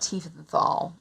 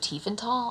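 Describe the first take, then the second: First: The 'th' is said as an English th. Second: The 'th' is said as a plain t.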